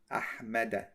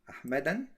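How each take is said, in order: First: The word ends in a plain vowel, no n. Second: The word ends with an added n sound. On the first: The speaker calls it right. "I'm going to say it like this" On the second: The speaker calls it wrong. "Can I say like this? ... No"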